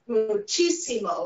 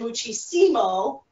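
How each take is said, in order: First: The stress is on the third-to-last syllable. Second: The stress is on the second-to-last syllable. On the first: The speaker calls it right. "it tells you how to stress it" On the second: The speaker calls it wrong. "if I didn't have an accent here, it would say muchísimo, and that sounds wrong in Spanish"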